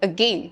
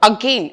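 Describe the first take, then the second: First: The first vowel is a short, reduced vowel. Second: The first vowel is a full, open vowel. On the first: The speaker calls it right. "It is again, a" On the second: The speaker calls it wrong. "again എന്നല്ല നമ്മൾ പറയുന്നത്"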